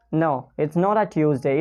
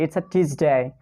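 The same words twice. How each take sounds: First: "Tuesday" said as tyooz-day with a y glide after the t; wrong Tuesday with a y glide. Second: "Tuesday" said as tooz-day, no y sound after the t; plain t then oo in "Tuesday"; Tuesday without y. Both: Shown as a demonstration.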